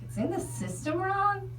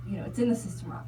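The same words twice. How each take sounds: First: Higher "It's in the system wrong?" with a rising question on "wrong"; incredulous echo. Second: Fast, matter-of-fact rattle; brisk nurse. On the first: Repeating the nurse's excuse back to her, incredulous. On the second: Nurse explaining the record error, fast and offhand. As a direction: rush through it like a routine excuse. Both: Retold or imitated.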